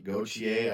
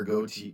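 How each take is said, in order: First: Gauthier said fully as "go-chee-ay", French style; corrected name. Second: Gauthier said as "Goat", cut short; stumbling over Gauthier, saying just "Goat"; first try at the name. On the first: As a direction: fix it: Gauthier, ending in "chee-ay". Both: Shown as a demonstration.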